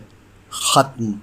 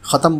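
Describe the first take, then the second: First: The word is said as one syllable. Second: The word is said as two syllables. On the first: The speaker calls it right. "जो दुरुस्त है" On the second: The speaker calls it wrong. "आमतौर से ख़त्म बोला जाता है, जो बिल्कुल गलत है"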